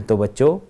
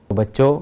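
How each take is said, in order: No difference in how they are said.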